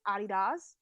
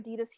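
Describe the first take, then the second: First: It is said with a German pronunciation. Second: It is said with an American pronunciation. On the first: This is how the company's home country says it. "Adidas is actually how it's pronounced. The German company" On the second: This is how people say it locally. "we say Adidas here"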